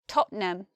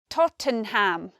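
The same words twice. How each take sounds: First: It is said with only two syllables. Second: It is said with three full syllables. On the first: The speaker calls it right. "it's not three syllables. We say Tottenham" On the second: The speaker calls it wrong. "You might expect Tottenham. It's not that"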